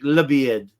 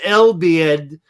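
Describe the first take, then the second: First: The name starts with a 'la' sound. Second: The name starts with an 'el' sound. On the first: This is how it is said in Arabic. "you pronounce it in Arabic La Bied" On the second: This is how it is written. "it says El Bied"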